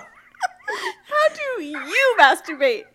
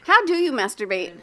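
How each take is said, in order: First: The word 'you' is stressed. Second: The word 'you' is not stressed.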